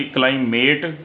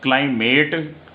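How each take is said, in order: First: It is said in a British accent, vowel long. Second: The same.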